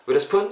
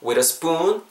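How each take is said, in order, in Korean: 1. spoon의 모음은 짧아요. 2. spoon의 모음을 길게 늘려서 발음해요. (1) "이렇게 하지 마시고" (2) "길게 발음해주세요"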